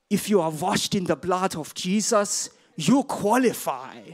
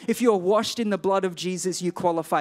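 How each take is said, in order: First: Put-on slow, heavy German accent, like an old evangelist; thick German accent. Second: Said in the usual way. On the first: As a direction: imitate Reinhard Bonnke's German accent, slowly. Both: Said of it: "this thick German accent".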